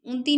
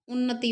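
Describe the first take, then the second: First: उन्नति squeezed to two syllables, un-ti; wrong form unti. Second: उन्नति in three syllables with doubled n; correct form unnati. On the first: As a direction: drop the middle na of उन्नति: unti. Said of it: "उन्नति नहीं होता". (उन्नति को उन्ती की तरह) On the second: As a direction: sound the middle na of उन्नति: un-na-ti. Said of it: "उन्नति होता है". (उन्नति, दोहरे न के साथ) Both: Shown as a demonstration.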